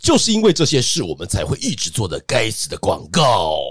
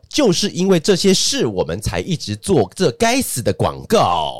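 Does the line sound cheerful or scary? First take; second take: cheerful; scary. First: It is said in a bright, upbeat tone. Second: It is said in a dark, spooky tone. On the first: The speaker calls it right. "这样听起来比较会大调一点" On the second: The speaker calls it wrong. "我们刚是不是说不要用恐怖？"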